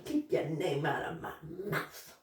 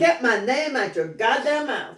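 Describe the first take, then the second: First: Muttered quote. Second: Sassy comeback. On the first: Retold or imitated. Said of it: "That's what you said?". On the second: Shown as a demonstration. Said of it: "That's wrong".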